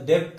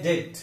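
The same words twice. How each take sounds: First: डेप्ट with the silent letter sounded; wrong pronunciation. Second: डेट with a silent b; no b sound in डेट; correct pronunciation. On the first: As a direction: say डेप्ट as "debt" with an audible b. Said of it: "इसका गलत". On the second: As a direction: say डेट as "det". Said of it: "इसका सही उच्चारण". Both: Shown as a demonstration.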